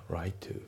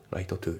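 First: "right to" with one T, as rai-tu; dropped T. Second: "Right to" as Japanese-style raito tu; fully sounded T. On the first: Teacher correcting the two-T version of right to, dropped T. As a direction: leave out the T ending "right". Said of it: "ライトのTが抜けますね". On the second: Teacher showing learners what to avoid in Right to, both Ts sounded. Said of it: "じゃなくて". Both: Shown as a demonstration.

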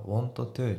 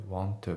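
First: "want to" with each T said separately; both T's sounded. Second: "want to" run together with a single T; linked T's. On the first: Teacher showing the unlinked form, "want to" with two separate T's. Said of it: "Tが重なってるから、want toじゃなくて". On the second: Teacher showing natural linking, "want to" with one shared T. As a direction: merge "want to" into one word with one T. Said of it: "Tが重なってるから". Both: Shown as a demonstration.

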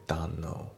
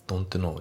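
First: Don't know as donno; dropped t. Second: Don't know with a clear t; Don't know, t kept; unlinked reading. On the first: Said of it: "ドントのTが抜けますね". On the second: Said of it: "Don't knowじゃなくて". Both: Shown as a demonstration.

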